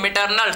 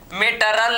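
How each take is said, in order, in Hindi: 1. इसे 'l' से पहले 'n' ध्वनि के साथ बोला जाता है। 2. इसे 'l' से पहले 'n' ध्वनि के बिना बोला जाता है।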